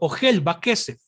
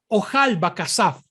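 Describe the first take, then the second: First: The vowels in both words are mostly e. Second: The vowels in both words are mostly a. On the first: This follows the Masoretic reading tradition. "el texto masorético nos muestra que la pronunciación debe ser Ojel Vakesef" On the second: This follows the Babylonian reading tradition. "no se pronuncia kesef en el sistema babilónico, sino que se pronuncia kasaf"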